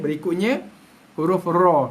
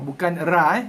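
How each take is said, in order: First: The syllable sounds full, heavy and rounded. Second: The syllable sounds thin, light and plain. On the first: The speaker calls it right. "Bunyi bulat eh" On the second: The speaker calls it wrong. "bukan ra"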